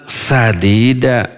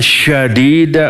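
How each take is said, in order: First: The word begins with a plain 's' sound. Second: The word begins with an 'sh' sound. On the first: Speak words that are good and upright. The speaker calls it right. "dengan sin kecil" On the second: Speak words that are harsh and hard. The speaker calls it wrong. "dibacanya dengan shin besar"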